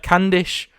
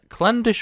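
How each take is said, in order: First: No L sound follows the first consonant. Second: An L sound follows the first consonant. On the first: The speaker calls it right. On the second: The speaker calls it wrong.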